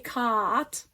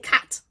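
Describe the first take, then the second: First: The vowel is drawn out long. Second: The vowel is quick and short. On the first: The speaker calls it wrong. "We don't say cat" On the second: The speaker calls it right. "we say cat, which is quick"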